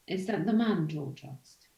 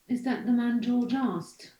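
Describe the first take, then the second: First: The pitch moves on man; George asked stays low. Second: George and asked also carry pitch accents. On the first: "It's de-accented on the pronounced on a low tone. So my um, my melodic movement here is on man" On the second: "In fact, you have accents"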